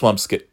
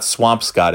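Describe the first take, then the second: First: The last syllable sounds like 'skit'. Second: The last syllable sounds like 'scott'. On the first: The speaker calls it right. "it's Swampskit" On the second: The speaker calls it wrong. "it's not Swampscott"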